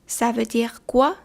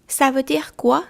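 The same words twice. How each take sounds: First: Ça veut dire quoi said slowly, each word apart; slow, careful repeat. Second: Said in the usual way. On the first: Shown as a demonstration. Teacher to learners, slow model repeat. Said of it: "teacher repeats slowly for learners". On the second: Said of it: "teacher models the phrase".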